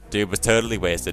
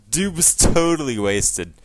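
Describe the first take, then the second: First: It is said on one flat, unchanging pitch. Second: It is said with normal, varied pitch.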